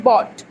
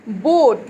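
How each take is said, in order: First: "bot" with a short open aw vowel. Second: "boat" with a long, closed oh vowel. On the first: Teacher shows the misreading, "bot" with short open O. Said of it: "This is boat, long sound word". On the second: Teacher shows long sound word, "boat" with long oh. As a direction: draw out the oh in "boat", slowly. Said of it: "long sound word". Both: Shown as a demonstration.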